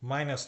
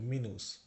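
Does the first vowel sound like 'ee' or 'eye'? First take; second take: eye; ee. First: The first vowel sounds like 'eye'. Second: The first vowel sounds like 'ee'. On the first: The speaker calls it wrong. "মাইনাস না" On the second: The speaker calls it right. "কিন্তু মিনুস"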